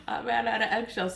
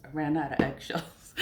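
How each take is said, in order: First: Amused, higher-pitched repeat; laughing. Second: Said in the usual way. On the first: Real, not acted. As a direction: say it quickly through a laugh.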